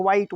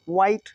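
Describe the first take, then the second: First: "व्हाइट" split as wa-hite; H sounded. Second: "व्हाइट" as one syllable, wite; silent H. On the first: Teacher showing the wrong reading, h sounded. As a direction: add an audible h inside "व्हाइट". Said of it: "जैसा नहीं बोलेंगे". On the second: Teacher giving the right reading, silent h. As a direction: glide from w into the vowel in "व्हाइट". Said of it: "व्हाइट बोलेंगे". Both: Shown as a demonstration.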